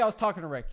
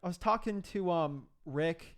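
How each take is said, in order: First: It sounds confident and firm, without fillers. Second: It sounds hesitant, with fillers and stumbling. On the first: The speaker calls it right. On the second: The speaker calls it wrong.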